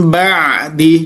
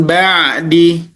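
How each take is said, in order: The two takes are said the same way.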